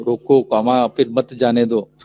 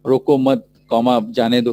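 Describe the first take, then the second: First: रोको set apart, then मत जाने दो run together; comma after रोको. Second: रोको मत joined, break before जाने दो; comma after मत. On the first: Teacher showing how punctuation changes a sentence, pause after रोको. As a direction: break right after रोको, speaking the comma aloud. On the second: Teacher showing how punctuation changes a sentence, pause after मत. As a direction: speak the comma aloud after मत, then जाने दो. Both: Shown as a demonstration. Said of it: "पंचक्षण से एक particular".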